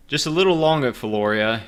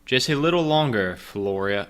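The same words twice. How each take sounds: First: High, loud robot voice. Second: Said in the usual way. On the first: Acted. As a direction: stiff mechanical character voice. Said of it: "I don't have my voice yet". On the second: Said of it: "that's supposed to be me".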